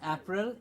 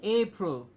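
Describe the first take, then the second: First: The first vowel is a short 'a'. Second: The first vowel is a long 'ay'. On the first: The speaker calls it wrong. "It's not April" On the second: The speaker calls it right. "It is A"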